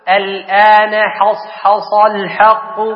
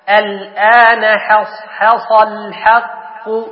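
First: Every consonant in the phrase sounds heavy. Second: The sad sounds are heavy, the ha sounds light. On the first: The speaker calls it wrong. "تفخم الكل" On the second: The speaker calls it right. "لا"

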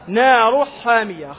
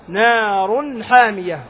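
First: The n sound is hidden or blurred before h. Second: The n sound is pronounced clearly before h. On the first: The speaker calls it wrong. "فلا تقول مثلا نار حامية، خطأ" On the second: The speaker calls it right. "نار تظهر النون"

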